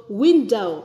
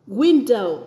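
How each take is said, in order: The two takes are said the same way.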